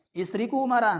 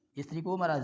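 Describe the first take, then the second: First: Istriku marah said higher and louder, marah punched; louder emphatic read of Istriku marah; emphatic example. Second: Said in the usual way. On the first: Shown as a demonstration. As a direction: call out the example with force. Teacher voicing angry wife example.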